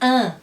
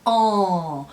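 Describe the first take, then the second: First: The nasal vowel is open, without lip rounding. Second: The nasal vowel is said with rounded lips. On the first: The speaker calls it wrong. "para não ficar assim" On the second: The speaker calls it right. "A pronúncia correta é en"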